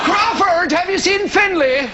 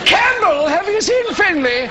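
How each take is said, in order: First: Higher mock dance-organiser voice; surname clan member. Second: Higher-pitched mock clan voice; surname clan member. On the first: One surname type hails another, mock chummy call. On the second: Clan member asks another after Finlay, mock chummy call. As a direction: hail a fellow clansman in caricature.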